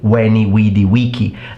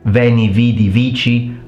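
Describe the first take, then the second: First: Each word starts with a rounded W sound. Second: Each word starts with a buzzing V sound. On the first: This is the ancient Roman style of Latin. "in classical Latin it was a short vowel, W" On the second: This is the church style of Latin. "the V is always pronounced as a consonant, V"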